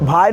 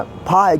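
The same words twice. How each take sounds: First: फाई said with a b-h sound as भाई; भाई, the mistaken aspirated b sound; wrong way. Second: फाई with a clear aspirated p sound; फाई said correctly, the ph sound. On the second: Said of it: "भाई नहीं बोल रहे हैं". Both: Shown as a demonstration.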